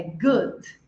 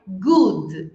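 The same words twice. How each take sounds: First: "good" with a short relaxed oo; "good" certo com U curto; correct "good". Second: "good" with a long tight oo, slowly; "good" errado com U longo; wrong "good". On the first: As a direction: give the right short oo in "good". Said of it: "é good". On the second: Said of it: "Não é good". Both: Shown as a demonstration.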